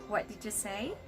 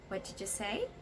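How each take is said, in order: First: The question sounds nice and polite. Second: The question sounds nice and polite.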